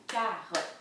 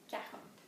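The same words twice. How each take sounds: First: CAROTTE in two loud, separate beats; découpé en syllabes. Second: Said in the usual way. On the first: Shown as a demonstration. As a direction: punch out both syllables of "Carotte". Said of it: "deux syllabes". (« Carotte » scandé en deux syllabes)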